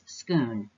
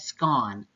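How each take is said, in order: First: The vowel rhymes with moon. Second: The vowel rhymes with swan.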